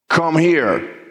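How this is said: It is said forcefully, like a stern order.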